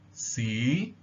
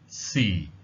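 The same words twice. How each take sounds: First: The pitch rises from mid to high. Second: The pitch falls low like a sigh. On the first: The word means history. "the high rising tone. So here it rises to the top from a slightly lower level" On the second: The word means time. "the low falling tone... as if you were sighing"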